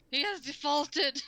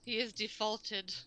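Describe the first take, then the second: First: "He has defaulted" said slower and louder, every word leaned on; emphatic repeat. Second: Said in the usual way. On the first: Shown as a demonstration. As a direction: drag out "He has defaulted" with weight.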